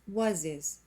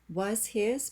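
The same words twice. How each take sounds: First: The h sound in 'his' is dropped. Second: The h sound in 'his' is pronounced.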